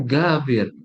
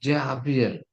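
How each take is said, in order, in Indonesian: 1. Nama itu dimulai dengan bunyi G yang keras. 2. Nama itu dimulai dengan bunyi J yang lembut. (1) "dalam bahasa Mesir jim itu dibaca G" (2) "kalau diterjemahkan tuh gini"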